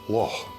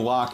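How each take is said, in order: First: The word ends in a breathy throat sound. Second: The word ends in a hard k sound. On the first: The speaker calls it right. "is actually pronounced loch" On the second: The speaker calls it wrong. "the lazy American way to pronounce that word"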